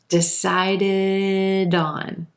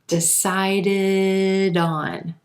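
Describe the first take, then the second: Both takes have the same delivery.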